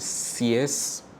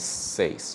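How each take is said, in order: First: The vowel is not an e-then-i glide. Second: The vowel glides from e to i. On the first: The speaker calls it wrong. "you might have heard seis" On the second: The speaker calls it right. "really the pronunciation is seis"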